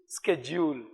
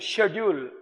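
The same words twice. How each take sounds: First: It is said with an American pronunciation. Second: It is said with a British pronunciation. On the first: "the Americans will use schedule" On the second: "when we are using schedule"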